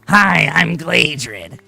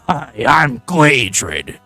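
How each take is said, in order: First: The voice is high-pitched and nasal. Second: The voice is dropped lower in pitch. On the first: "I literally sound like that if my voice isn't dropped down" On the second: "I can drop my voice in real life, but it doesn't sound quite the same"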